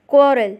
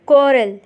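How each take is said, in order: Both takes have the same delivery.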